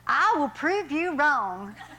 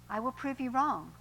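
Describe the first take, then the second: First: It is said in a put-on Southern US accent. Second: It is said in the speaker's ordinary accent. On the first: "I'm going to read that again in southern" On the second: "I can't do his southern accent"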